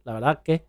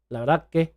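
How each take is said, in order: First: The s sound is dropped out entirely. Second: The s sound is dropped out entirely.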